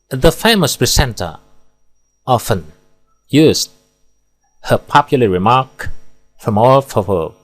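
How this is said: There is a pause after every single word. The speaker calls it wrong. "terlalu banyak pemenggalan, tidak efektif, dan bertele-tele. Di sini pemenggalannya per kata"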